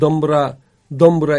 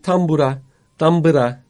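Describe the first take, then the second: First: The word begins with a voiced D sound. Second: The word begins with a voiceless T sound. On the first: This is the old form, common across Anatolia. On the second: This is the standard modern form.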